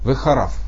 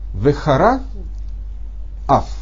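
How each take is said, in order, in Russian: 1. Два слова произносятся слитно, без всякой паузы. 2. Между двумя словами есть короткая пауза. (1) "если мы здесь не будем делать такой перемежочек, то у нас получится" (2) "здесь есть запятая"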